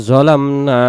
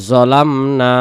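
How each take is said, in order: The two takes are said the same way.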